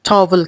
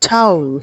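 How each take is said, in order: First: The first vowel sounds like 'aw' in 'saw'. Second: The first vowel sounds like 'ow' in 'cow'. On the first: "जिसको हम लोग बड़ी आसानी से पाकिस्तान में टॉवल कह देते हैं" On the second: "वाउल का जो राइमिंग वर्ड है वो टाउल है"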